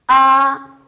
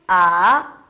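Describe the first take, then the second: First: The pitch stays high and level. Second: The pitch dips low, then rises. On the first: "일성은 이렇게 얘기해요" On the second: "삼성"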